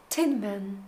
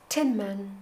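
No difference in how they are said.

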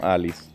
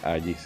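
First: The middle consonant is a plain L sound. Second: The middle consonant is a Y-like sound. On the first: The speaker calls it wrong. "no Alice" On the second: The speaker calls it right. "tu nombre se pronuncia Agis"

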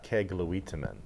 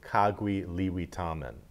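First: It is said with a Penobscot pronunciation. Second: It is said with an Abenaki pronunciation. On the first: "They would say in Penobscot" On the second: "what is that called in Abenaki? I'd say"

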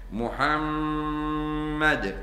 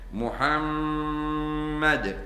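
First: The doubled m is held with a long nasal hum. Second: The doubled m is held with a long nasal hum.

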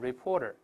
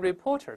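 First: The t is softly voiced and said faster. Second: The t is a clear, unvoiced stop. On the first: "读快了之后呢，这个字母T 会轻轻浊化一下" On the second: "由reporter"

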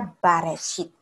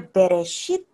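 First: The first vowel is an a sound. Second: The first vowel is a short e sound. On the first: It means in the beginning. "bisa dibaca Bareshit" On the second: It means in a beginning. "kata seperti ini bisa dibaca Bereshit"

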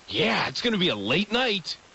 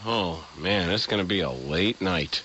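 First: It is said cheerfully, with a smile. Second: It is said wearily, with a groan.

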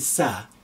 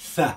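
First: It begins with a hissing s sound. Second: It begins with a soft th sound. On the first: The speaker calls it wrong. "Don't call it a Sa" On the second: The speaker calls it right. "the tongue trap, and then you expelling the air very gently"

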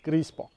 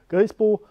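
First: The name is said in standard German form. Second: The name is said in local dialect form.

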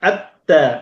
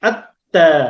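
First: The l merges into a doubled t sound. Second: The l merges into a doubled t sound.

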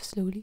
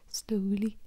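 First: It is said in a plain, non-Welsh accent. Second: It is said in a Welsh accent. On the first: "instead of slowly" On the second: "I feel like they'd say slowly"

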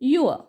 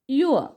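The two takes are said the same way.

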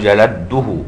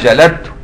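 First: The t is dropped and the d is doubled. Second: The d and the t are both pronounced. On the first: This is one narrator's regional dialect. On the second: This is the standard form of the word.

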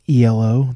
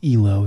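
First: It is spelled out as separate letters. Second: It is said as a single word. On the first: It is an abbreviation. The speaker calls it wrong. "A lot of people think that it's like ELO, that it must stand for something" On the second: It is a person's name. The speaker calls it right. "but it actually is ELO. It's pronounced like that because it was named after some guy"

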